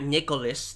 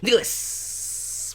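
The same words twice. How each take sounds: First: The final s sound is short. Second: The final s sound is long and drawn out. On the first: The speaker calls it wrong. "not Nicholas" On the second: The speaker calls it right. "with a lot of S's"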